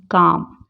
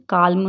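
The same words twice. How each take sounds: First: Said in the usual way. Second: काल्म with the silent l sounded; audible l before the m in काल्म; wrong pronunciation. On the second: Shown as a demonstration. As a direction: say काल्म as "kaal-mu", l fully voiced. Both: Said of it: "काल्म नहीं पढ़ेंगे".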